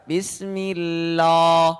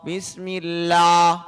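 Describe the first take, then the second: No difference in how they are said.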